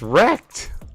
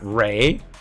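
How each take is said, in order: First: The ending is said with a plain English sound. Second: The ending is said with a French-style sound. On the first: The speaker calls it right. "It's Wrecked" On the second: The speaker calls it wrong. "it's not Ray ... we're not doing French pronunciations"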